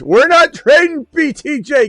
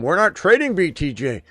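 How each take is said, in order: First: It is said louder and more forcefully. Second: It is said at a normal, quieter volume.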